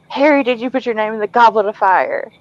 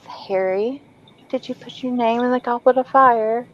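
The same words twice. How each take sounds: First: It is shouted in an angry, aggressive voice. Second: It is spoken in a calm, gentle voice. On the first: The speaker calls it wrong. "have Dumbledore yell at Harry" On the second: The speaker calls it right. "he's very calm and gentle"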